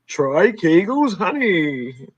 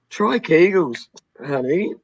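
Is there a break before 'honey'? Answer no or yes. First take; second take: no; yes. First: There is no break before 'honey'. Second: There is a break before 'honey'. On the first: Honey is the name of a product. "Or honey as in a product name, like" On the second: The speaker is addressed affectionately. "Honey has a pet name? As in"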